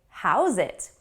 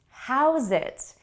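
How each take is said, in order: First: The words are linked into one word. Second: The words are linked into one word.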